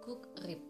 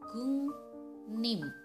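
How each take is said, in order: First: The middle consonants sound like k and r. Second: The middle consonants sound like ng and n. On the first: The speaker calls it wrong. "harusnya dibaca gukrip" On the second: The speaker calls it right. "yang benar pengucapannya gungnim"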